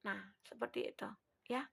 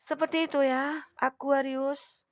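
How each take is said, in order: First: Said in the usual way. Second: Louder, with a long stretched "Aquarius"; loud drawn-out call. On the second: Acted. Reader calling out to her Aquarius viewers, loud and drawn out. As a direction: sing out "Seperti itu ya, Aquarius" to the viewers.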